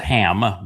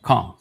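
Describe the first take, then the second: First: The name starts with a plain, soft h. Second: The name starts with a throaty, rasping sound. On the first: "everybody pronounces it as" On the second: "actually third born of Noach"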